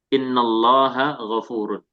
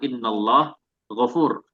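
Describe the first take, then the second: First: The final vowel endings are fully pronounced. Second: The words end cut off without vowel endings.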